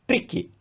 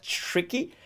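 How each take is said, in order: First: "tricky" with crisp dental t and tapped r; Italian TR. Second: "tricky" with a long "chr" onset; exaggerated English TR. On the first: Teacher reading the English word as Italian, "tricky" with tapped r. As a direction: read "tricky" as if Italian, t and r kept apart. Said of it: "In Italian, that word is tricky". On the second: Teacher contrasting English with Italian, "tricky" as exaggerated "chricky". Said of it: "I'm exaggerating that". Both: Shown as a demonstration.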